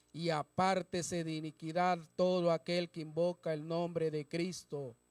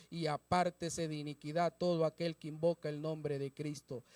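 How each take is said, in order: No difference in how they are said.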